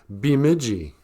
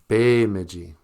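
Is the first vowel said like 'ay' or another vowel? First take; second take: another vowel; ay. First: The first vowel is not said like 'ay'. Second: The first vowel is said like 'ay'. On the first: The speaker calls it wrong. "even people in the cities don't know how to pronounce it" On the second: The speaker calls it right. "You'll notice I said Bemidji"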